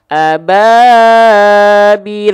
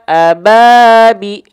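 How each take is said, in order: First: The long vowel is held too long. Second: The long vowel is held briefly. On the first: "Kalau dipakai dua harokat kadar guna, ababil kepanjangan" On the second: "ini dua harokatnya kadar mad"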